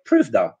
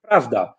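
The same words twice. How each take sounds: First: "prawda" said as "pruwda", vowel like u; Kashubian prawda. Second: "prawda" with a clear open a; plain standard "prawda"; standard Polish prawda. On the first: Teacher showing the Kashubian "prawda". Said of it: "In Kashuby, we say". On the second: Teacher giving standard Polish "prawda". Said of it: "in the standard Polish, we say". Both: Shown as a demonstration.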